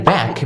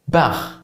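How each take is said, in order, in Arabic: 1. الكلمة تنتهي بصوت K قوي. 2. الكلمة تنتهي بصوت KH خشن. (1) "كلمه زي باك" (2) "بتتحول لخ"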